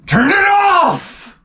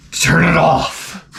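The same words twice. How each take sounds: First: Very high, drawn-out agonized wail; hammed-up monstrous howl, stretched right out; George C. Scott. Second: Slow, strained mock-agonized groan; George C. Scott. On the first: Father breaking down at his daughter's film, howling wail. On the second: Father watching his daughter's film, slow anguished groan. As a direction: drag it out like a monster awakening. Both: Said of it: "he's turning into Frankenstein's monster".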